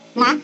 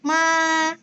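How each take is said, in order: First: The pitch rises upward like a question. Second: The pitch stays high and level. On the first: It means a kind of grain. "dia naik ke atas... kayak orang bingung" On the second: It means mother. "datar dan tinggi"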